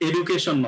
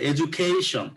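First: The word is said flat, without clear stress. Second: The stress falls clearly on the syllable 'ca'. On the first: The speaker calls it wrong. "অনেকে বলে education, no, this is not right" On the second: The speaker calls it right. "এর আগের যে সিলেবলটা সেখানে stress হয়"

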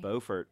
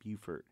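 First: It is said with a British pronunciation. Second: It is said with a slightly nasal sound. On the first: This is how the English original is said. "was the correct British pronunciation" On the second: This is how the local town name is said. "little nasally sounding"

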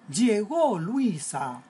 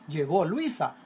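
First: It is said as an emotional exclamation. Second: It is said as a plain statement.

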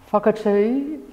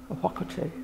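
First: The WH is pronounced like an F. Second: The H is silent, with no F sound. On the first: "from a Tainui dialect, emphasises the WH as an F sound" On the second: "of the silent H. It is not spoken as an F, it's more like a whakatū"

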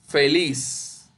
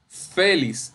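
First: The stress is on the last syllable. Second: The stress is on the first syllable. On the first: The speaker calls it right. "Eso es la sílaba tónica, lis" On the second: The speaker calls it wrong. "porque no es feliz"

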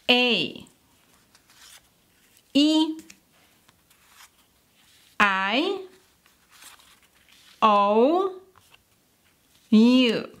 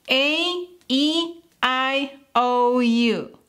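First: The vowels are said at normal speed. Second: The vowels are said very fast.

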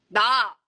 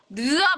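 First: The word sounds plain and natural. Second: The word sounds distorted and put-on. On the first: The speaker calls it right. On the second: The speaker calls it wrong. "느아 말고"

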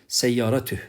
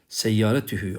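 First: The word ends on a bare h sound. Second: The word ends with a lengthened hu vowel. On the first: The speaker stops after this word. "bu hü zamiri durduğum zaman uzatılmaz" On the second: Another word follows without stopping. "bir kelimeye geçiş yapıyorsak seyyaratühü diye uzatılır"

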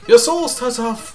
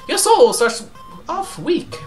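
First: It is said in a voice unlike Flowey's. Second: It is said in a put-on Flowey voice.

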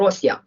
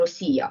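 First: The stress falls on the first syllable. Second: The stress falls on a later syllable. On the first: "а завжди наголошувало Росія" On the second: "ніколи не наголошувало назву цієї держави Росія"

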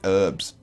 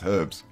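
First: The word starts without an h sound. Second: The word starts with an h sound. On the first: This is the American way of saying it. "comments from Americans going, it's herbs" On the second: This is the British way of saying it. "Not in the UK, it's not. It's herbs"

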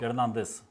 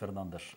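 First: The name ends with an "s" sound. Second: The name ends with an "sh" sound. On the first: This is how the name is said here. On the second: This is how the other side says the name.

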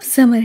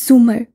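First: The first vowel is an 'a' sound. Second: The first vowel is a 'u' sound. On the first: The speaker calls it wrong. "सुमर का नाम गलत तलफ़ुज़ से बोला था" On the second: The speaker calls it right. "जी के ऊपर पेश है। उसे तोड़ तोड़ कर बताया।"

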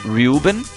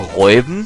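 First: The name is pronounced the English way. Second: The name is pronounced the German way. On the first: "Rubens heißt Reuben" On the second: "könnte man ihn in Deutsch aussprechen"

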